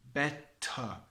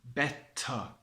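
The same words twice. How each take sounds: Both takes have the same delivery.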